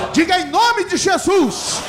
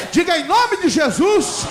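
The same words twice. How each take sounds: The two takes are said the same way.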